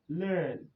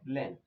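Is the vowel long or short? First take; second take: long; short. First: The vowel is long. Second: The vowel is short. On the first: The speaker calls it right. "but learn" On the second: The speaker calls it wrong. "Here it is not learn"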